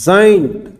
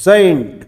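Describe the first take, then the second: Both takes have the same delivery.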